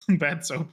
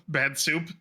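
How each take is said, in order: First: "soap" said with an OH vowel; "soap" with long o. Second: "soup" said with an OO vowel. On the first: Player sorting out a slip, "soap" with a clear OH. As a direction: say "soap" to rhyme with rope. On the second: Player replaying the slip, "soup" with a clear OO. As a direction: say "soup" to rhyme with loop. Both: Real, not acted. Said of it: "Not the soup".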